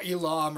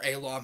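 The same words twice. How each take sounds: First: Elam said the first of two ways; one pronunciation. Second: Elam said the second, different way; alternative pronunciation. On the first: Unsure vlogger trying a name, first pronunciation of Elam. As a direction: offer one guess at saying Elam. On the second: Unsure vlogger correcting a name, alternative pronunciation of Elam. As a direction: offer another guess at saying Elam. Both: Shown as a demonstration. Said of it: "however the fuck you say that name".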